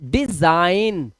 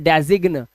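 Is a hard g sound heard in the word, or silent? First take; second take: silent; heard. First: The g is silent in the word. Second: A hard g sound is pronounced in the word. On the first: The speaker calls it right. "तो हम देखो क्या बोल रहे हैं इसको" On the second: The speaker calls it wrong. "अब इसे डेजिग्न नहीं बोल रहे हैं"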